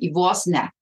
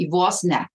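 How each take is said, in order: First: It is said in Austrian German dialect. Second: The same.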